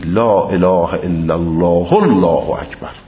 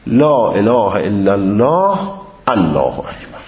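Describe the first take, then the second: First: Joined with a vowel, no glottal stop before Allahu. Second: A pause-like stop, then a glottal stop before Allahu. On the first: The speaker calls it right. "وصل به حرکت با حذف حمزه الله" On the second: The speaker calls it wrong. "وصل بکنه ما قبل الله اکبر را با سکون و ذکر حمزه"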